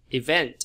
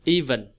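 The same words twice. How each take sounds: First: "Event" as i-VENT; light first syllable in "Event", strong VENT; second-syllable stress. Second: "Even" as EE-ven, falling; crisp teacher's model of "Even"; first-syllable stress. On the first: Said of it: "Nó rơi cái âm nhấn vào âm thứ hai". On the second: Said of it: "Nhấn âm một là ý nè". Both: Shown as a demonstration.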